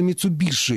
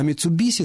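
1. Последний согласный — шипящий звук 'sh'. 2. Последний согласный — свистящий звук 's'. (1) "Хотя это дальше от оригинала" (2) "это было ближе к реальному звучанию слова в японском языке"

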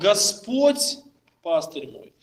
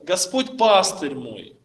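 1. Ударение падает на первое слово. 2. Ударение падает на второе слово. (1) "Никто другой, ни его лучший друг, ни его жена, ни его плоть, его пастырем был Господь" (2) "делаем, друзья, ударение на второе слово"

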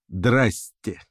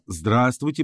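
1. Слово сокращено до двух слогов. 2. Слово произносится полностью. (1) "превращается в «драсте»" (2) "«здравствуйте» превращается в «драсте»"

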